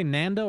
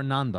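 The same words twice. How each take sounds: First: "Nando" with a short a as in "man"; pronunciation contrast. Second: "Nando" with a broad ah; pronunciation contrast. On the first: Caster asking co-caster which way he says it, "Nando" with short a. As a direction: say "Nando" with the American a of "hand". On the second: Caster offering the other option, "Nando" with a broad ah. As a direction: say "Nando" as "NAHN-doh". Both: Shown as a demonstration. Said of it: "You say Nando or Nando?".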